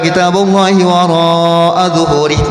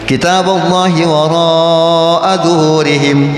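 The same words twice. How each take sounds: First: The phrase is recited at a very fast tempo. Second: The phrase is recited at a fast tempo. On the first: "yang cepat banget" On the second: "Tuh waroknya mad wajib karena cepat ya"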